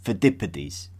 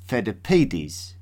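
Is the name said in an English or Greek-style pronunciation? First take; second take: English; Greek. First: The name is said with the familiar English pronunciation. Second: The name is said with a Greek-style pronunciation. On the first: "the more familiar" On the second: "I pronounced as"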